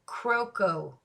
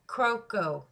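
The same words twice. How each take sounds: First: Croco, said KROH-koh, both o's long; name pronounced. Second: Croco again as KROH-koh, slow and falling; name repeated. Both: Shown as a demonstration. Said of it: "And it's pronounced".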